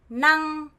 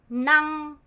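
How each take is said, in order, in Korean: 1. 성조가 처음부터 끝까지 평평해요. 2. 성조가 처음부터 끝까지 평평해요.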